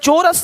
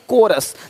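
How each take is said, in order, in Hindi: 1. शब्द ch की ध्वनि से शुरू होता है। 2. शब्द k की ध्वनि से शुरू होता है। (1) "चोरस नहीं"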